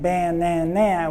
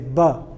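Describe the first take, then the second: First: The unstressed vowels are full ah sounds. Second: The unstressed vowels are weak uh sounds. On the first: The speaker calls it wrong. "instead of saying banana" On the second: The speaker calls it right. "we say"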